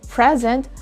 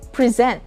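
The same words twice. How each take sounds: First: The stress is on the first syllable. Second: The stress is on the second syllable. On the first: It is a noun meaning a gift. "The stress is on the first syllable" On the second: It is a verb meaning to show. "we put the stress on the second syllable"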